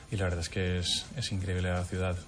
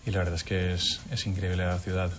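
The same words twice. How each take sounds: The two takes are said the same way.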